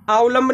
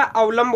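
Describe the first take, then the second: First: अवलंब said with long opening aa, "aavlamb"; mispronounced first vowel. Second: अवलंब with short opening a, "avlamb"; correct short vowel. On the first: Teacher showing students the wrong form, अवलंब with long aa. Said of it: "अवलंब नहीं होता". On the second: Teacher giving students the real word, अवलंब with short a. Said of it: "अवलंब होता है". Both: Shown as a demonstration.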